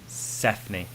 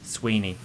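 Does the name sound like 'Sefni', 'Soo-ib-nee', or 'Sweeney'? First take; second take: Sefni; Sweeney. First: The name is said with an f sound, like 'Sefni'. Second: The name is said with a w sound, like 'Sweeney'. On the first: "I think it's something like Sefni" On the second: "or Sweeney"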